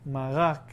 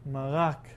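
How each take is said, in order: Both takes have the same delivery.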